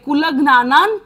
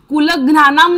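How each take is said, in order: First: The word ends with an n sound. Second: The word ends with an m sound. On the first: The speaker calls it right. "वाङ्मय मधला न बोलायचा आहे" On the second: The speaker calls it wrong. "कुलज्ञानाम नाही बोलायचंय, म नाही बोलायचंय"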